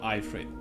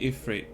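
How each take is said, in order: First: The first syllable sounds like 'eye'. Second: The first syllable sounds like 'if'. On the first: The speaker calls it wrong. "It's not an iPod" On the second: The speaker calls it right. "I would always say Ifrit"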